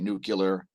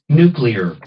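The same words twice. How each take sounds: First: The word is said as nu-cu-lar. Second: The word is said as nu-clear. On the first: The speaker calls it wrong. "don't say nuclear" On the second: The speaker calls it right. "say nuclear"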